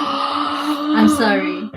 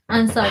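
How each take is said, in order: First: Slow breathy whisper; whispered apology. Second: Said in the usual way. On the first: Real, not acted. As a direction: whisper it slowly.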